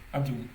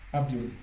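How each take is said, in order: No difference in how they are said.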